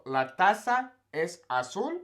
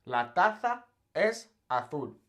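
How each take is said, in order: First: "La taza es azul" slowly, Z as S; "taza" as tasa, "azul" as asul; Latin American pronunciation. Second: Castilian Spanish: "La taza es azul" slowly, Z as TH; "taza" as tatha, "azul" as athul; Castilian Spanish lisp. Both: Shown as a demonstration. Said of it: "much bigger difference".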